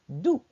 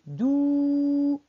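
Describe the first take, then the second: First: "dou" said briefly, not held; short vowel. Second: "dou" held long on one pitch; drawn-out vowel. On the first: Teacher repeating what she said, "dou" kept short. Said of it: "قلت، j'ai dit". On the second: Teacher showing what she didn't say, "dou" drawn out long. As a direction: stretch the vowel of "dou" right out. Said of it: "Je n'ai pas dit". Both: Shown as a demonstration.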